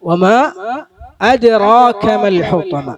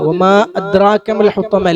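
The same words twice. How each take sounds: First: The d is said with an echoing bounce. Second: The d is said flat, without a bounce. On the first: The speaker calls it right. "അത് കൽക്കല മുഴക്കമുണ്ടാകണം" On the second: The speaker calls it wrong. "അല്ല"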